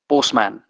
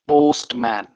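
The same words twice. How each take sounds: First: It is said quickly with the t sound dropped. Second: It is said slowly with a distinct t sound. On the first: "इसी word को आप तेज तेज पढ़ो तो जो है टी का sound है एकदम गायब होता हुआ" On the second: "जब हम इसको स्लोली पढ़ते हैं तो इसे हम पढ़ते हैं पोस्टमैन। टी का प्रॉपर डिस्टिंक्ट साउंड यहां पे सुनाई देता है।"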